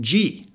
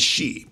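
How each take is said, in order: First: The name starts with a 'j' sound. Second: The name starts with an 'sh' sound. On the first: The speaker calls it wrong. "they call the name G, like G Wiz" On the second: The speaker calls it right. "like S-H-E-E"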